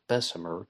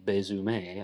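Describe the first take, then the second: First: The name has a non-French pronunciation. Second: The name has a French-style pronunciation. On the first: "most people, including Miriam C. Davis, pronounce it Bessemer" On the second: "some people pronounce his name Louis Bessemer, again because of the French influence of New Orleans"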